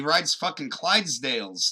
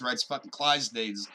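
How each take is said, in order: First: Said in the usual way. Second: Clydesdales stumbled as "Clydes-days"; tongue-tied. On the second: Real, not acted. Podcaster tripping over his words before the first drink, tongue-tied on Clydesdales. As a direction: trip over Clydesdales, losing its L. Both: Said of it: "we're not even drinking yet".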